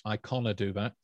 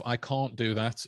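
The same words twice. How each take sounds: First: "canna" in place of can't, long first vowel; Stoke-style contraction "canna"; Stoke dialect. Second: Said in the usual way. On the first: Shown as a demonstration. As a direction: say "canna" as "kah-nuh". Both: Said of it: "instead of".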